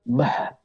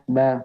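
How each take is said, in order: First: The syllable is breathy with air escaping. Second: The syllable is fully voiced without extra breath. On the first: The speaker calls it wrong. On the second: The speaker calls it right.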